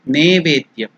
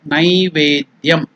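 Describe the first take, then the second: First: The first syllable has a plain 'e' vowel. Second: The first syllable has an 'ai' glide. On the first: The speaker calls it wrong. "some people in some parts of India, they pronounce it as Nevedyam. It is not Ne" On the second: The speaker calls it right. "It is Nai"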